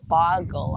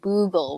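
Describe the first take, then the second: First: The first vowel is a short o sound. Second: The first vowel is a long oo sound. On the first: The speaker calls it right. "it was clearly an O" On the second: The speaker calls it wrong. "people kept saying Boogle"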